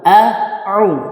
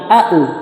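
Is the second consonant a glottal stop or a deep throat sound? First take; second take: throat sound; glottal stop. First: The second consonant is a deep throat sound. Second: The second consonant is a plain glottal stop. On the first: The speaker calls it right. "harusnya setelah huruf hamzah di sana ada huruf ain" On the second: The speaker calls it wrong.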